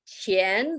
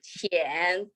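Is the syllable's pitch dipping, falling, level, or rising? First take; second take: rising; dipping. First: The pitch rises from middle to high. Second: The pitch dips low, then rises. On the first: It means money. "the second tone" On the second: It means shallow. "third tone"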